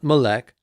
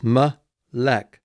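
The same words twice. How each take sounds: First: Melech with the weight on the last syllable, LECH; wrong stress demo. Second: Melech with the weight on MEL, not LECH; stress on first syllable. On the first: Teacher shows the wrong melech, stress on last syllable. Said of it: "not melech". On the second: Teacher models melech, stress on first syllable. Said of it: "accent's on the first syllable". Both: Shown as a demonstration.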